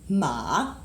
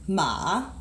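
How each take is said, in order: First: The pitch dips low then rises. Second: The same.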